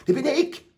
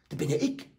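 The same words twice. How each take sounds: First: Higher and louder, an exclaimed realisation; sudden realisation. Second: Said in the usual way. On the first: Retold or imitated. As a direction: burst out as it dawns on you. (laut und hoch: „Das bin ja ich“) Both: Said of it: "die Kinder sich an und sagen".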